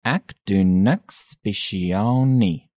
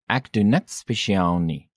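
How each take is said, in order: First: "Ek doen niks spesiaal nie" slowly, word by word; slow demonstration. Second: Said in the usual way. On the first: Shown as a demonstration. Teacher repeats response slowly.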